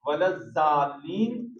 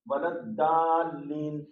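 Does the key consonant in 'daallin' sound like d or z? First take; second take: z; d. First: The key consonant is said like a z. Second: The key consonant is said like a d. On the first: "जा से आवाज निकल रही है, तो ये भी गलत है" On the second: "दाल से अगर निकाल रहे हैं आवाज"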